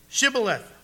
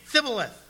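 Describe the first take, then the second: First: The word begins with a sh sound. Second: The word begins with a th sound. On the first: The speaker is from Gilead. The speaker calls it right. "Then say, Shibboleth" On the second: The speaker is an Ephraimite. The speaker calls it wrong. "For he could not pronounce it"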